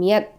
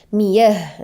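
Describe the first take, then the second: First: The word ends with a t sound. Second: The word ends with a soft h sound. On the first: The speaker calls it wrong. "bukan miat" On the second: The speaker calls it right. "dia menjadi ha ya, bukan ta"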